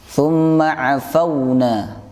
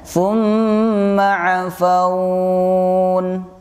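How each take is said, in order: First: The word flows on, with the vowel kept short. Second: The word ends stopped, with the vowel drawn out. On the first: The reader continues without stopping. "tidak dipanjangkan" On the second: The reader stops at this word. "itu baru bacaan mad lain"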